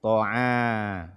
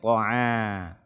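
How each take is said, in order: Both takes have the same delivery.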